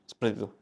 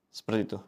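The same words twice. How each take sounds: Both takes have the same delivery.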